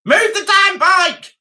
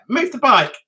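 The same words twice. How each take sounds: First: Higher, louder, slow yell; mock shout. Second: Said in the usual way. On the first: Shown as a demonstration. Yelling at the neighbour to shift his bike, raised mock yell. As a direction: bark the order at the neighbour.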